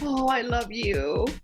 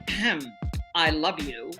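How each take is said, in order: First: It is said tenderly and warmly. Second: It is said with cold annoyance.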